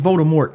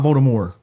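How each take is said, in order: First: The final T sound is pronounced. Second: The final T sound is silent. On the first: The speaker calls it right. "his name is" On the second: The speaker calls it wrong. "It's not"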